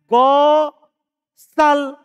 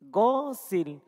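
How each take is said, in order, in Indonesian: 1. Huruf s diikuti vokal a. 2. Huruf s diikuti vokal i. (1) "Bisa saja dia baca" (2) "Huruf sinnya ini di sini kasro"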